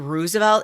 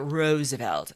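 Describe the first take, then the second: First: It is said the South Side Chicago way. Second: It is said the general, non-Chicago way.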